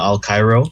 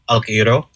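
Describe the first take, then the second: First: The name is said like the English 'Al Cairo'. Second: The name keeps its original Filipino sound order. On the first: This is the form adapted for people who could not say the original. "it's kind of been Americanized to Al Cairo" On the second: This is the family's original form of the name. "it's actually um Alquiro"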